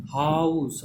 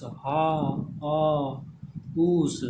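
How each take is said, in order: First: हाउस in one drawn-out glide from आ to उ; whole-word demonstration. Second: हा, आ, उस separated by pauses; word broken into sounds. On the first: Teacher showing how the sound comes out, whole drawn-out word. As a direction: say हाउस whole, stretching the diphthong. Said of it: "किस तरह से आ रहा है". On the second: Teacher letting students hear each vowel, broken into pieces. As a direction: split it into हा, आ, then उस. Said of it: "आ और उ का sound". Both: Shown as a demonstration.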